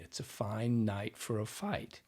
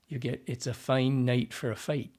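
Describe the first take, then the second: First: The vowels in fine, night, fight sound open. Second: The vowels in fine, night, fight sound raised, tight.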